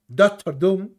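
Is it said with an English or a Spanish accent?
English. English accent, final syllable strongly stressed. "en inglés sería Doctor Doom"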